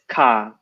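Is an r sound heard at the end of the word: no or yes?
no. The word ends without an r sound. This is the British way of saying it. "There's no r, it's just car"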